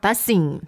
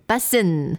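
First: The word ends with a g sound. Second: The word ends without a g sound. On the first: The speaker calls it wrong. "not bussing" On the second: The speaker calls it right. "它会发成那个bussin"

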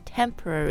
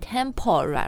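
First: The second syllable is reduced to a schwa. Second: The second syllable has a full 'o' vowel. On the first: The speaker calls it right. "就是那个 schwa sound" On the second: The speaker calls it wrong. "它这里是 P-O, 但是我们不念 temporary"

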